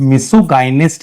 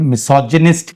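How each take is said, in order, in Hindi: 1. g hard है, लंबे i के साथ। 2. g सॉफ्ट है, j की तरह। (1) "इसको मिसोगाइनिस्ट नहीं कहोगे" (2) "मिसोजिनिस्ट कहोगे"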